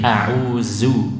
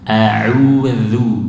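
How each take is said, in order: First: The middle consonant is a buzzing z sound. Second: The middle consonant is a soft th sound. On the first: The speaker calls it wrong. "Misalnya zai" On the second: The speaker calls it right. "baca dengan dal sempurna"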